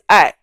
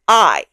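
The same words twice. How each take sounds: First: The vowel stays steady without gliding. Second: The vowel glides like an English diphthong. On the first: The speaker calls it right. "It's just one simple vowel" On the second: The speaker calls it wrong. "That sounds very English"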